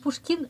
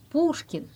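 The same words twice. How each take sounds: First: The 'ou' vowel is short. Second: The 'ou' vowel is lengthened. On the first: The speaker calls it wrong. "Et vous dites Pushkin, non" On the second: The speaker calls it right. "Là, on allonge le ou"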